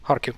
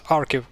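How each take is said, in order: First: Kharkiv opening on an H-like kh; sounded Kh. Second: Arkiv starting straight on the vowel; silent H. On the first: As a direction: sound the breathy Kh at the start of Kharkiv. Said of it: "why they write it like this". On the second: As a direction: drop the opening H, Arkiv. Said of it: "make a silent H". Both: Shown as a demonstration.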